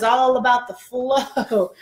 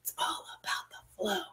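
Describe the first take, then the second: First: Slow, voiced, stretched-out words; drawn out. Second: Very soft, hushed whisper. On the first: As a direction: savour it playfully, stretching each word. Playful drawn-out take before whispering it. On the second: Pretend. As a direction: whisper it like a playful secret. Playful whispered repeat for effect.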